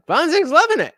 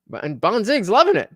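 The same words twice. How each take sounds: First: Bonzig's loving it said much higher, with a gleeful lift on loving; excited squeal. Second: Said in the usual way. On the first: Real, not acted. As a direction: gush it up high like delighted teasing.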